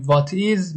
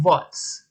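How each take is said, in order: First: "what is" said as two separate words; full form. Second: "what's" run into one syllable; contracted form. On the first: Teacher shows learners the long question word, "what is" uncontracted. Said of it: "به جای اینکه بگیم". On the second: Teacher shows learners the short question word, "what's" as one syllable. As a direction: say "what's" short, ending straight in ts. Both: Shown as a demonstration.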